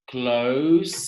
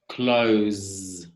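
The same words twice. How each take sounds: First: The word ends with a hissing S sound. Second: The word ends with a buzzing Z sound.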